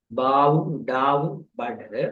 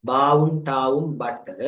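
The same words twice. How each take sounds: First: படு with a short single ட், unhurried; single consonant, slow. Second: பட்டு with a held double ட்ட, stopped hard; doubled consonant. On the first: Teacher contrasting படு for students, short single consonant. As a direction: say படு with one quick ட், slowly. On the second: Teacher reading பட்டு to students, doubled consonant held. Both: Shown as a demonstration. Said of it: "ஆரம்ப எழுத்து பா சத்தமாக இருக்கும்".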